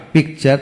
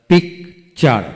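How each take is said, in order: First: Said in the usual way. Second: picture broken after the first syllable; a gap in the middle of picture. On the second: Shown as a demonstration. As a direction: say picture as two separate beats. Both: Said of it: "যতটুকু অংশ একসাথে উচ্চারণ করা যায়".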